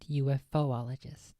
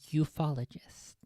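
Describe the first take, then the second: First: Said as 'UFO-ologist', with an extra 'o' syllable. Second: Said as 'ufologist', with no extra 'o' syllable. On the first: The speaker calls it wrong. "not UFOologist" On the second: The speaker calls it right. "I believe the proper pronunciation is ufologist"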